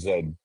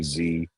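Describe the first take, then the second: First: The letter is said as zed. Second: The letter is said as zee. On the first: "I did say Zed" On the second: "if I say Z, some of uh that'll make sense to our American viewers"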